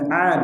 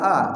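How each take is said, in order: First: The vowel starts deep in the throat. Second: The vowel starts plainly with a catch. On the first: The speaker calls it right. "Huruf ain" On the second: The speaker calls it wrong. "jangan a ... bukan huruf hamzah atau alif"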